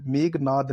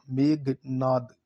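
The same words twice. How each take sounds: First: "मेघनाद" run together with plain g; quick "मेघनाद" as megnaad; "मेघनाद" with no breath on g; wrong pronunciation. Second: Slow "मेघनाद", megh then naad; stretched "मेघनाद" with breathy gh; correct pronunciation. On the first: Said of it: "मेघनाद नहीं". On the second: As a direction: split "मेघनाद" after aspirated gh. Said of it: "ये घ आएगा". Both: Shown as a demonstration.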